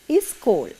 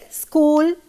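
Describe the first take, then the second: First: An extra vowel is added before the s. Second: The word starts directly with the s sound. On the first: The speaker calls it wrong. "They tend to say is school. That is a mistake" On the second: The speaker calls it right. "It should be school"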